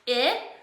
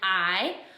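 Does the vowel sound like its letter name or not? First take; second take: not name; letter name. First: The vowel is short, unlike the letter's name. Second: The vowel sounds like the letter's own name. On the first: "which is short" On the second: "which is long"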